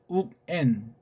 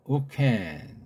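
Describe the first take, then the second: First: The k sound ends the first syllable. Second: The k sound starts the second syllable. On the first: The speaker calls it right. "우캔도 아니고 욱, N" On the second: The speaker calls it wrong. "우캔은 틀려요"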